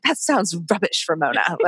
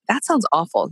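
First: Badly faked British accent, imitating a mentor; Chris Ducker. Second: Said in the usual way. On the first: Imitating her mentor's verdict on real estate, in a poor British accent. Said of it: "he did his British accent". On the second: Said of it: "of course he did his British accent".

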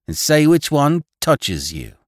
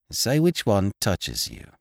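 First: Slow, higher and louder dare; girl daring the conductor to choose; eager teasing. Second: Said in the usual way. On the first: Acted. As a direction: egg him on with a teasing challenge. Girls teasing, urging him on.

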